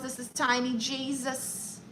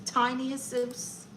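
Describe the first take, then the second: First: Said in the usual way. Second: Tiny "Jesus" said the Spanish way, as hey-SOOS; Spanish-style Jesus. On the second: Shown as a demonstration. Streamer renames her consultant in Spanish: "Jesus" as hey-SOOS.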